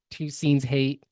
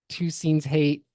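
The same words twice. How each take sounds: The two takes are said the same way.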